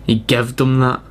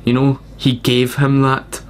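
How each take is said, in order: First: "gived" said instead of gave, a Southern dialect form. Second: Said in the usual way. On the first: Shown as a demonstration. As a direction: say "He gived them that" like a cowboy. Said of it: "said gived". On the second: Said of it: "proper English is the word gave".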